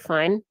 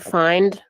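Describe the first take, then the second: First: The final D sound is dropped. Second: The final D sound is clearly pronounced. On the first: "but more like fine" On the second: "it's not like she's saying find"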